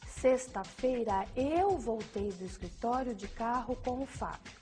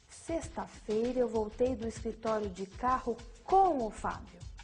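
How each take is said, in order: First: The stress falls on "eu". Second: The stress falls on "com o Fábio". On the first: Nobody else came back with him. "A ênfase no eu indica que nenhuma outra pessoa além de si mesma voltou" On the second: It tells who came along. "A ênfase no com o Fábio indica a companhia"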